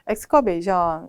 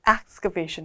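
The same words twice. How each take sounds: First: It is said with a foreign learner's pronunciation. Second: It is said with a native-like English pronunciation. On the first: The speaker calls it wrong. "여러분이 예를 들면 excavation 이렇게 읽은 거예요" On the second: The speaker calls it right. "저는 지금 excavation 했어요. 그럼 원어민도 비슷하게 해요"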